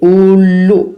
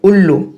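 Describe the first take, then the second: First: The first vowel is drawn out long. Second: The first vowel is short, not drawn out. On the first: The speaker calls it wrong. "इस तरीके से नहीं बोलते हैं हम" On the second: The speaker calls it right. "हम बोलते हैं"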